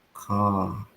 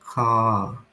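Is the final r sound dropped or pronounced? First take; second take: dropped; dropped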